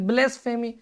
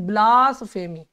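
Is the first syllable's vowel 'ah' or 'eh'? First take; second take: eh; ah. First: The first syllable has an 'eh' vowel. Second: The first syllable has an 'ah' vowel. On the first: The speaker calls it wrong. "ब्लेस मत पढ़िए" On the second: The speaker calls it right. "क्या पढ़ेंगे, ब्लास फेमी"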